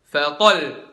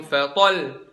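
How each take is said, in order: The two takes are said the same way.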